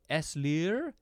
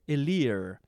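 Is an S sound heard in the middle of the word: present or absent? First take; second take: present; absent. First: An S sound is pronounced before the L. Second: No S sound is pronounced before the L. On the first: The speaker calls it wrong. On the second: The speaker calls it right.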